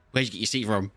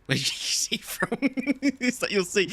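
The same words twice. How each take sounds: First: Said in the usual way. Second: Retold question dissolving into high laughter; cracking up. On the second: Retelling his nagging question to Sav, cracking up. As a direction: start the quote and lose it laughing.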